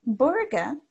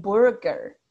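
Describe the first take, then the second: First: Burger the non-rhotic way, like burga; Burger without the R. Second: Burger slowly, final R clearly sounded; slow rhotic burger, R pronounced at the end; American Burger with R. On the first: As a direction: Burger with the final R left out. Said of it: "como lo que habíamos escuchado". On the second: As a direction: burger the US way, both R sounds marked. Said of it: "and burger". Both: Shown as a demonstration.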